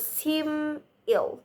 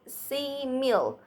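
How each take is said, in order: First: "simil" split as seem, then ill; juncture after m. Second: "simil" split as see, then mil; juncture before m. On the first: Presenter contrasting juncture, "simil" split as seem ill. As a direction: hold the m of simil, then break. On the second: Presenter showing juncture, "simil" split as see mil. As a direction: break after the first vowel of simil. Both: Shown as a demonstration. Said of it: "juncture changes the meaning".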